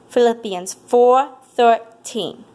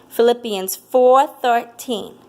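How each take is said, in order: The two takes are said the same way.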